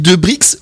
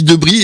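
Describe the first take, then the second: First: The name ends with an audible x sound. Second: The name ends without any x sound. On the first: The speaker calls it right. "on prononce le X" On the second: The speaker calls it wrong. "ça se prononce pas?"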